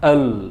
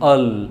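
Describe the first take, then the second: No difference in how they are said.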